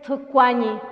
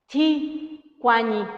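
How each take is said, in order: First: The first syllable has a u vowel. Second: The first syllable has an i vowel. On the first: The speaker calls it right. "Y es tucuañi" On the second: The speaker calls it wrong. "si alguien lo pronuncia, diría ti cuañi"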